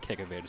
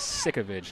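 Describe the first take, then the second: First: The name starts with a k sound. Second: The name starts with an s sound. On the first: The speaker calls it wrong. "I've been mispronouncing her name" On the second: The speaker calls it right. "It is Sikovic"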